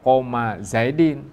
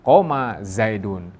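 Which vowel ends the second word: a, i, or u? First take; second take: i; u. First: The second word ends in an i sound. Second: The second word ends in a u sound. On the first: The speaker calls it wrong. "jangan dibaca" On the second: The speaker calls it right.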